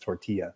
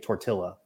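First: The double L is said as a 'y'. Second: The double L is said as an 'l'. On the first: The speaker calls it right. "It's tortilla" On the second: The speaker calls it wrong. "That'd be like saying tortilla"

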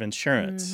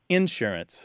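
First: The stress is on the second syllable. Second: The stress is on the first syllable. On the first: This is the typical pronunciation in the American North. "instead of" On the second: This is the typical pronunciation in the American South. "pronounce with the stress on the initial syllable"

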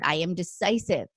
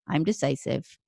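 First: It is said with strong conviction. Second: It is said flatly, without conviction.

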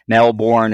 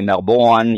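First: The name has an American pronunciation. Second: The name has an Australian pronunciation. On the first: The speaker calls it wrong. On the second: The speaker calls it right.

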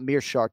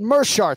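First: The first syllable has an 'ee' vowel. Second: The first syllable has no 'ee' vowel. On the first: The speaker calls it wrong. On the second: The speaker calls it right.

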